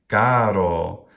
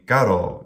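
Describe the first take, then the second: First: Both syllables are held long. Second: The first syllable is short, the second long. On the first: The speaker calls it wrong. "maybe something like a spandi" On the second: The speaker calls it right. "short, long"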